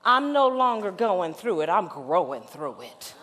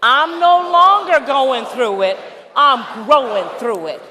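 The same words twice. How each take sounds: First: Measured lead line for the congregation; preacher's first pass of the phrase; call to repeat. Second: Louder, proclaiming the phrase; rousing shouted affirmation; full-voice call and response. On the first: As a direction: give it clearly so they can echo it. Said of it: "I would like for you to repeat after me". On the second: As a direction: declare it with the whole room. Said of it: "All right, let's do it". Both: Shown as a demonstration.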